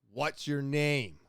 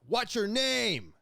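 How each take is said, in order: First: Said in the usual way. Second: Higher, louder, slow barked demand; retold yelling. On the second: Armed officer yelling at him to give his name. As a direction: yell the question like an armed officer. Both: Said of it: "Like, yelling it".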